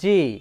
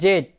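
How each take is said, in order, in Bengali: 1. অক্ষরটি 'zee' হিসেবে বলা হয়। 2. অক্ষরটি 'zed' হিসেবে বলা হয়।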